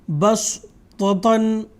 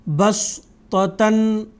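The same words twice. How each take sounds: The two takes are said the same way.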